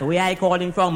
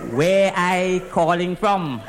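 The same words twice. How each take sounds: First: Said in the usual way. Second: Low, very slow echo of a question; slow, deliberate disbelief; incredulous echo. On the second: Acted. Echoes boss's question in disbelief.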